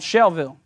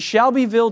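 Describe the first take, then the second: First: The name is said with fewer syllables. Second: The name is said with all its syllables. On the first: This is how locals say the name. "Not as many syllables" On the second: This is how outsiders say the name. "But they don't say it that way"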